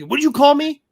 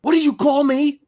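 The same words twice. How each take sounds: First: Higher, stung what did you call me; offended demand. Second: A higher, stung what did you call me; offended demand. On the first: Artist retelling the angry question from Landis's son, stung demand. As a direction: throw it back like the insulted guy. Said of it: "I caught it almost immediately". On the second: Landis's son confronting the artist at his booth, stung demand. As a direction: demand it like he's been insulted. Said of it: "he looks at me and he goes". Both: Retold or imitated.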